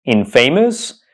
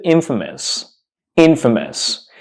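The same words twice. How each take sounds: First: Infamous said as in-FAY-mus; "infamous" with "famous" inside, long AY; mispronounced infamous. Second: Infamous said as IN-fuh-mus; correct infamous. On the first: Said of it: "we don't pronounce this word". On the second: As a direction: stress the IN of "infamous", weak "fuh". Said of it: "we pronounce it". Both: Shown as a demonstration.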